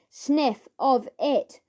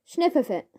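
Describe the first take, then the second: First: Slowly, word by word; slow repeat. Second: Said in the usual way. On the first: Acted. Ern repeating himself slowly for Fatty. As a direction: spell it out slowly for the slow listener. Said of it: "repeated Ern". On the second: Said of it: "Sniff of it," repeated Ern".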